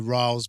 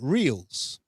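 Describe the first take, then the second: First: The vowel sounds like 'eye'. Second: The vowel sounds like 'ee'. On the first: This is how the man himself says his name. "most of us say Riles because that's how he says you pronounce it" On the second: This is how a broadcaster says the name. "But T S N pronounces it Reels"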